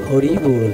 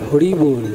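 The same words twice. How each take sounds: No difference in how they are said.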